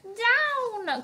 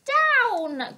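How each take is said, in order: First: High, loud cry of "Down!"; witch's cry. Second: "Down!" high and loud; witch's cry. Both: A narrator's reading. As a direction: shout "Down!" up high. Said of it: "cried the witch".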